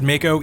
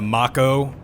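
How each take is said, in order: First: The name has an English-style pronunciation. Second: The name has a Japanese-style pronunciation. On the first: The speaker calls it wrong. "I always said Mako, even though I now know that that is wrong" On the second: The speaker calls it right. "they are more accurate"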